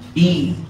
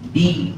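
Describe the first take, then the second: The two takes are said the same way.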